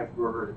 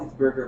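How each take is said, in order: First: "burger" mumbled as if through a mouthful of food; mouth full. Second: Said in the usual way. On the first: Shown as a demonstration. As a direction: say "burger" as if chewing a bite. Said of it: "But if I have food in my mouth". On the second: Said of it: "if I don't have food in my mouth".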